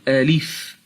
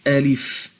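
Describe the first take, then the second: The two takes are said the same way.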